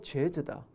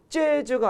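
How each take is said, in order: First: The first consonant is plain. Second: The first consonant is tense. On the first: The speaker calls it right. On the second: The speaker calls it wrong.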